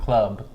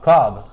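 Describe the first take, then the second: First: It is said like 'club', with a U vowel. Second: It is said like 'klob', with an O vowel. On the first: The speaker calls it wrong. "not Club" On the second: The speaker calls it right. "K L O B"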